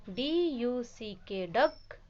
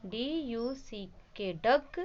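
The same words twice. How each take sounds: The two takes are said the same way.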